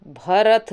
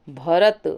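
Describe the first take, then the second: First: भरत ending in aspirated th, "bharath"; wrong form. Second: भरत ending in plain t; no breath on the final t of भरत; correct form. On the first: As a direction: breathe out on the last t of भरत. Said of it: "भरत नहीं होता है". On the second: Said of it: "थ नहीं". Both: Shown as a demonstration.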